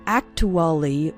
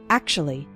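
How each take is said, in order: First: Every syllable is said fully and separately. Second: The syllables are shortened and run together. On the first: The speaker calls it wrong. "We don't say actually" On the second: The speaker calls it right. "We say actually"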